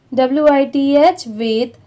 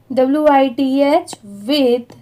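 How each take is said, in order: Both takes have the same delivery.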